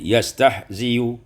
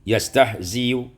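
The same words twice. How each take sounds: No difference in how they are said.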